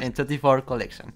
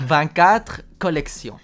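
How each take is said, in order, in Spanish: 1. El nombre se pronuncia a la manera inglesa. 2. El nombre se pronuncia a la manera francesa. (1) "Entonces lo pronuncias en inglés" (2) "en francés"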